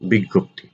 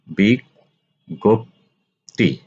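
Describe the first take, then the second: First: Said in the usual way. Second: বিজ্ঞপ্তি slowly as big-gop-ti, each syllable clear; slow model pronunciation. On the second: Shown as a demonstration. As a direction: draw out বিজ্ঞপ্তি for students to copy. (বিজ্ঞপ্তি ধীরে স্পষ্ট উচ্চারণ) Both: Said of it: "আলোচনা করব শব্দের উচ্চারণ".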